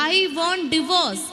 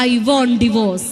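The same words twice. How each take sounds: First: Sulky bride. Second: Slow, drawn-out, louder mock sulk; sulky bride. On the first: Retold or imitated. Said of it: "ഇങ്ങനെ ചെയ്യുന്ന പറഞ്ഞാൽ". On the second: Speaker mocks a bride scolded by her mother-in-law, slow and loud. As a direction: stretch out each word like a spoilt bride. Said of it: "അമ്മായിമ്മ വഴക്ക് പറഞ്ഞാലോ".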